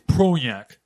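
The word is said in a nasal voice. The speaker calls it right. "I pinched the nose there and made the nasal"

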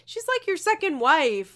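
It is said in a light, joking tone. The remark is friendly teasing. The speaker calls it right. "It's a jovial conversation"

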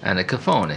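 The name is said in an Italian accent.

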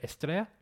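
It is said with a Spanish accent. "If I was a Spaniard"

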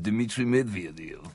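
It is said in a deep Russian accent. "it's almost impossible to say unless you say it in a Russian accent"

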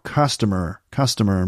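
It is said in an American accent. "In America it'd be like customer maybe"

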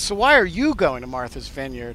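The word 'you' gets special stress. The listener is singled out, hinting at racial suspicion. "did he put the emphasis on the word you in the sentence? ... But he says"

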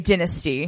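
It is said with a British pronunciation. "people who are speaking in these British accents, and they would say dynasty"

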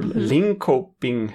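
The name is pronounced the English way.

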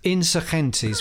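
It is pronounced the Spanish way. "which is the Spanish"

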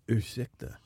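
The word is said in a sultry, seductive tone. The speaker calls it wrong. "don't say it sexy like that"

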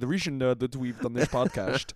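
It is said in a put-on Dutch accent.

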